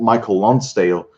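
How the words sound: The name is pronounced the English way. "if you would read it, in, read it in English"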